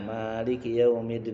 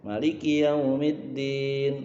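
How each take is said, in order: First: The first vowel of maliki is held long. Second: The first vowel of maliki is kept short. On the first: He rules by ownership. "rakaat pertama panjang kan" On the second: He rules by authority. "dibacanya pendek"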